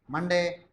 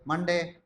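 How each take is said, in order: Both takes have the same delivery.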